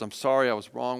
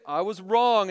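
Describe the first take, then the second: First: Gentle, humble apology; a low, soft confession; softly sincere. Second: Said in the usual way. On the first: Shown as a demonstration. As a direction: say sorry gently to your child. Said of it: "I say those words". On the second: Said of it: "We can say it".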